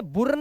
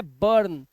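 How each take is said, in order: First: बुर्न read as boorn with an oo; wrong reading. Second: बर्न said as burn; right reading. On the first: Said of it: "बुर्न नहीं पढ़ना है". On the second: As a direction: clear correct बर्न. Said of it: "इसे पढ़ना है बर्न". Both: Shown as a demonstration.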